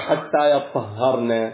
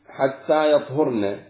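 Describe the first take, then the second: First: The verb is said with doubled, stressed consonants. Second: The verb is said with light, single consonants. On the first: Until they have washed themselves. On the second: Until their menstruation has ended.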